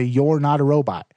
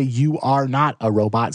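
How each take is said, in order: First: "You're" run together as one quick word; natural contraction "You're not a robot"; contracted you're. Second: You are not a robot with "You are" said as two full words; stiff, spelled-out "You are not"; uncontracted you are. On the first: Showing readers the natural spoken form. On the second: Showing readers the stiff form to avoid. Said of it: "Don't say". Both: Shown as a demonstration.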